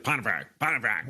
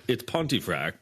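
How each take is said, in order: First: Pontefract said as "Ponnafrack", flattened and mangled; mispronounced name. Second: "Pontefract" said as "Pun-tee-fract" with every syllable clear; correct pronunciation. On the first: Boss mangling the employee's surname, mock mispronunciation. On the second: Correcting the new boss's mispronunciation, "Pontefract" spoken carefully. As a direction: set him straight by saying "Pontefract" properly, "Pun-tee-fract". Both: Retold or imitated. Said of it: "can't even enunciate my name".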